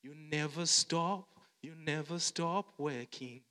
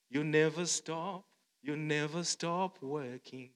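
No difference in how they are said.

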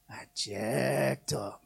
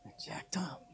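First: Low, slow, sheepish admission; hushed I jacked up; mock shamefaced confession. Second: Breathy whispered I jacked up; unvoiced shameful whisper. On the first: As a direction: confess it quietly like you messed up. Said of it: "And you realize". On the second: Shown as a demonstration. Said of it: "But say it like that".

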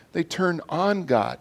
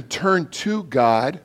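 First: Slow "turn on God", leaning on "on"; stress on ON. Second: Slow "turn to God", leaning on "to"; stress on TO. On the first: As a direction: set "on" apart with emphasis. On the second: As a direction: set "to" apart with emphasis. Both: Real, not acted. Contrasts turning to and on.

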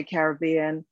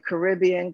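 First: Caribbean with main stress on the third syllable, karr-ih-BEE-un; British pronunciation. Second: Caribbean with stress on the second syllable, kuh-RIB-ee-un; American pronunciation. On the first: Founder adds what Brits say, Caribbean as karr-ih-BEE-un. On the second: Founder describing product colors, Caribbean said as kuh-RIB-ee-un. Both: Shown as a demonstration. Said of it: "or as the Brits would say".

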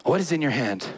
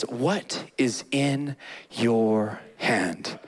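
First: Said in the usual way. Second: Low, slow, solemn divine question "What is in your hand?"; slow deep voice of God. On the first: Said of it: "repeated plainly". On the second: Acted. God asking Moses slowly and deeply. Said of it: "He says".

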